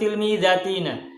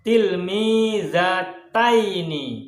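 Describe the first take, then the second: First: The word ends with the sounds 'ina'. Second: The word ends with the sounds 'aini'. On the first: The speaker calls it wrong. "Bukan tilmizatina" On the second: The speaker calls it right. "yang benar bacanya adalah tilmizataini"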